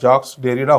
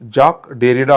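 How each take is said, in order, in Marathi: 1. पहिल्या नावाचा शेवट "s" आवाजाने होतो. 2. पहिल्या नावाचा शेवट "k" आवाजाने होतो. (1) "खरा उच्चार हा जॅक्स डेरिडा होत नाही" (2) "करेक्ट उच्चार हा जॅक डेरिडा होतो"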